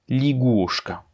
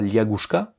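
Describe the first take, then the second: First: The first vowel is pronounced as a short 'i'. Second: The first vowel is pronounced as a full 'ya'. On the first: The speaker calls it right. "mais ligushka" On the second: The speaker calls it wrong. "On ne dit donc pas liagushka"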